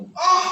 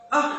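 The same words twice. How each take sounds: First: Loud, higher-pitched snap; an "ah" barked as an example; demonstrated snapping. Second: Said in the usual way. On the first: Shown as a demonstration. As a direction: snap it out sharply at a parent. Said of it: "dan sambil membentak". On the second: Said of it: "kita bilang kepada orang tua".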